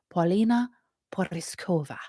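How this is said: The name is said with a foreign accent. The speaker calls it right.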